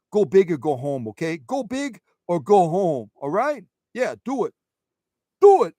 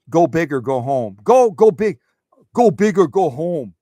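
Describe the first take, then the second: First: Hammed-up Brooklyn accent cheer. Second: Loud, pumped-up go big cheer; rally them like a coach; cheering quote. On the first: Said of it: "Say it with a Brooklyn accent". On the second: Retold or imitated. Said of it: "she always is like".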